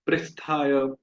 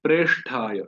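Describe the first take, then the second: First: "पृष्ठाय" with ri, pri-sh-thaay; wrong pronunciation. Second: "प्रेष्ठाय" with a clear long e, pre-sh-thaay; correct pronunciation. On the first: Teacher imitates devotees' mistake, "पृष्ठाय" with ri. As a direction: say "पृष्ठाय" with ri instead of re. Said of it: "उच्चारण करते हैं पृष्ठाय". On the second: Teacher gives the correct form "प्रेष्ठाय" with a clear e. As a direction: say "प्रेष्ठाय" with pre, not pri. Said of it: "सही उच्चारण है". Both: Shown as a demonstration.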